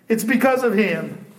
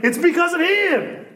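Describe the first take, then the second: First: Said in the usual way. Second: High emphasis. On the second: Real, not acted.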